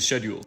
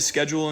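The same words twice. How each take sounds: First: The word is said the British way. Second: The word is said the American way. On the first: "people from the U K say schedule" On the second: "Usually Americans say schedule"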